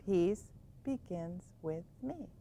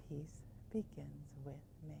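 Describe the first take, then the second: First: Softer and slow; soft mantra. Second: Unvoiced soft whisper. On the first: Teacher showing the bedtime mantra, softly. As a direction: murmur it slowly to settle. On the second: Teacher whispering the bedtime mantra. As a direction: whisper it as if falling asleep. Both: Shown as a demonstration. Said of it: "It's hard to settle down".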